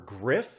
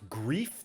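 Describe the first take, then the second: First: The vowel is short, like in 'sniff'. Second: The vowel is long, like in 'grief'. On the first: The speaker calls it right. "so I'm going to pronounce it Griff" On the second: The speaker calls it wrong. "I don't know if this is pronounced Grief or Griff"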